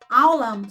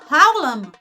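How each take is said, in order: First: The word begins directly with the vowel. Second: The word begins with a breathy h sound. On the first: The speaker calls it wrong. "Mas sabe como é que as pessoas falam? ... Não fala rei. Só fala a vogal" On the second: The speaker calls it right. "O certo, o correto é dizer Haolam"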